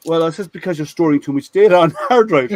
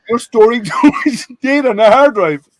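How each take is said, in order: First: Said in the usual way. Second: Higher and louder, laughing through the words. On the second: Real, not acted. Telling his colleagues how he fooled the VP, laughing. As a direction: repeat the line, cracking up.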